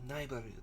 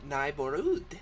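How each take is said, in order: First: It is said quickly, with the last syllable unstressed. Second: It is said slowly, stressing the last syllable.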